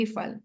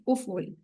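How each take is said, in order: First: افعل said as "ifal", with an i sound at the start; zer pronunciation. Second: افعل said as "uful", with an u sound at the start; pesh pronunciation. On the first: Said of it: "اس کو کیسے پڑھیں گے؟". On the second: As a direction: round افعل into "u-ful", both vowels u. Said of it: "پیش کے ساتھ پڑھیں گے". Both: Shown as a demonstration.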